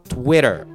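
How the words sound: It is said with English sounds and ending. "英語の発音のスイッチ入れてTwitter"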